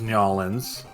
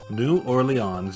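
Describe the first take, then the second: First: The name is squeezed down to two syllables. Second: The name is said in its full form.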